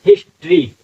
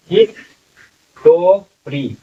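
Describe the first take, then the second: First: हिस्ट्री said quickly in two syllables, his-tri; natural everyday pronunciation. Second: हिस्टोरी drawn out slowly in four syllables, his-to-ri; sounded out letter by letter. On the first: Teacher giving students the real spoken form, crisp. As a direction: clip हिस्ट्री short, the way people actually say it. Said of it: "अमूमन जो लोग बोलते हैं, पढ़ते हैं, इसको". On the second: Teacher sounding out the spelling for students, slowly. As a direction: stretch हिस्टोरी syllable by syllable, as it looks written. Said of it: "ऐसे अगर पढ़ रहे हैं तो हिस्टोरी".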